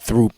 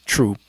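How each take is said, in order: First: The word begins with a th sound. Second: The word begins with a plain t sound. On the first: The speaker calls it wrong. "it's not uh Throop Street" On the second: The speaker calls it right. "is Troop"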